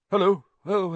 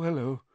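First: Higher, louder startled hello, rising; startled greeting. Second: Said in the usual way. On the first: A narrator's reading. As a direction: caught off guard, jump at the greeting. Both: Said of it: "starting and looking round".

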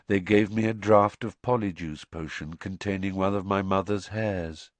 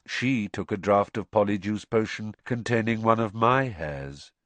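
First: Gently weight "mother's" as the first half of a contrast; "mother's" carries the contrast, in an even voice; stress on mother's. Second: "my" lifted in pitch, then "hairs" drops; stress on MY. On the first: Crouch explains the potion swap, light stress on "mother's". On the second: Crouch explains the potion swap, raised stress on "my". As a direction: lean on "my" to mirror the sentence before. Contrast with the preceding sentence. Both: A narrator's reading.

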